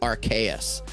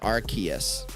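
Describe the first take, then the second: First: The middle vowel is an 'ay' sound. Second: The middle vowel is a long 'ee' sound. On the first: "not like an A sound. Like I was saying" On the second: "you're both saying a hard E"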